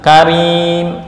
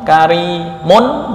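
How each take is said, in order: First: The word ends on 'm' with no ending. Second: The word ends with a full 'un' sound.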